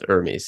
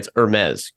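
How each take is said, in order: First: The name is said with an American pronunciation. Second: The name is said with a French pronunciation. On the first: "everyone in the United States says Hermes" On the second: "I hope I'm saying this right"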